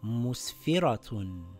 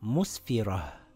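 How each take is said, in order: First: The word ends in a full -atun sound. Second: The word ends in a soft h sound. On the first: The reader continues past this word. "If I continue reading a sentence, this will read mus-fi-ra-tun" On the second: The reader stops at this word. "if I stop ... I read it with a ha. It now reads musfirah"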